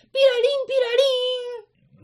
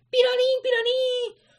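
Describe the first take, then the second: First: Very high siren beeping; alarm noise imitation. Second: Very high electronic siren sound; alarm noise imitation. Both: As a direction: mimic a flashing alarm.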